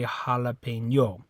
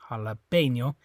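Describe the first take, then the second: First: The stress is on the final syllable ño. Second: The stress is on the syllable pe. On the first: The speaker calls it wrong. "but it's not the O. You don't say" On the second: The speaker calls it right. "So it's this E"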